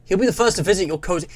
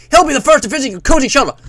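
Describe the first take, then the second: First: Said in the usual way. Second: Loud, high, fast American announcer; hammed-up Cold War American voice; American accent. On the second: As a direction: rattle it off like American propaganda. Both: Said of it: "like, an American voice".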